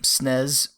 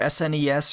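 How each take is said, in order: First: It is pronounced as a single word. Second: It is spelled out letter by letter. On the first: "rather than pronouncing the acronym" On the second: "I say Super Nintendo or S N E S"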